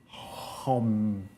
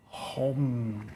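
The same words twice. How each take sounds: First: The word begins with a breathy H-like sound. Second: The word begins with a breathy H-like sound.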